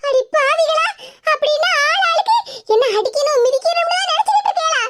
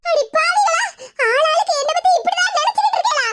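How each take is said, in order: First: Higher, half-laughing shocked exclamation; shocked outcry. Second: High, half-crying, half-laughing shout; mock wail. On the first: Acted. Sister-in-law catches the plotters scheming against her, shocked. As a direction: gasp it out in mock outrage. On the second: Betrayed woman cries out at her scheming relatives, mock wailing.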